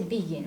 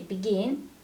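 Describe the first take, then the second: First: The stress is on the first syllable. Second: The stress is on the second syllable. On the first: The speaker calls it wrong. "we don't say begin" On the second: The speaker calls it right. "we say begin, so it's stressed"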